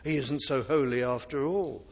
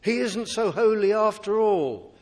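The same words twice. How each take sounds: First: Mock reassurance. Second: Said in the usual way. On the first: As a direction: shrug it off like a smooth deceiver. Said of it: "He's a God of love, you don't have to worry". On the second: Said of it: "preacher voices careless view".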